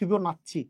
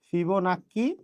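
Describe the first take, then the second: First: The consonant before the last vowel is a 'ch'. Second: The consonant before the last vowel is a 'k'. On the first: "দুটাই উচ্চারণ হয়" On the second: "দুটাই উচ্চারণ হয়"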